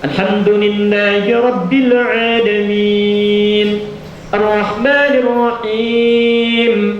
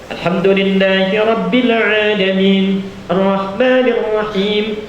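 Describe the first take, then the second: First: Long vowels are held moderately, at medium pace. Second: Long vowels are held briefly, recited quickly. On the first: Suited to leading the main audible prayers. "dua detik, empat harakat ya" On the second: Suited to many optional prayers like tarawih. "itu dua harakat cepat ya, cepat"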